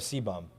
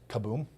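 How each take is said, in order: First: The name begins with a 'see' sound. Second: The name begins with a 'ka' sound. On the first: This is the usual way of saying the name. "instead of C-bum" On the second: This is how people in Brazil say the name. "the way they pronounce it is kaboom"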